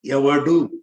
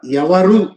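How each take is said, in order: First: ఎవడు said as the rude evadu, lower; ఎవడు with a hard retroflex d, set against evaru; pronounced evadu. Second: ఎవరు said as the respectful evaru; pronounced evaru. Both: Shown as a demonstration. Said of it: "ఎంత తేడా?".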